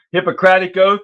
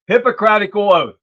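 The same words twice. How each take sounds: First: "Hippocratic" ending on "-ic", no "-al"; corrected pronunciation. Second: "Hippocratical" said with an extra "-al" ending; mispronounced slip. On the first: Host correcting himself on the doctors' oath, "Hippocratic" ending in "-ic". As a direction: say "Hippocratic" as the fixed version, ending crisply on "-ic". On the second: Host misnaming the doctors' oath, mispronounced "Hippocratical". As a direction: stumble into "Hippocratical", adding a syllable at the end. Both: Real, not acted. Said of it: "Sorry, not hypocritical".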